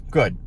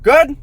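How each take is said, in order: First: "Good." short with a falling tune; settling confirmation. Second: "Good?" high, loud and rising; questioning check. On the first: Vlogger confirming his own plan, falling "Good.". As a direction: answer "Good." and close the matter. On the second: Vlogger checking the plan with viewers, questioning "Good?". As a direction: ask "Good?" with a sharp upward lift. Checks, then answers himself. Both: Real, not acted.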